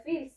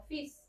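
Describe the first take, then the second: First: "fils" with the L sounded before the S; wrong pronunciation. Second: "fils" as "feess", silent L; correct French pronunciation. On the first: Teacher warns student off saying "fils" with an audible L, mispronounced. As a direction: say "fils" as spelt, like "feels". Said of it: "no se pronuncia fils". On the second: Teacher shows student how "fils" is pronounced, L left silent. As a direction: drop the L in "fils", keep the final S. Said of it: "se pronuncia como fils". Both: Shown as a demonstration.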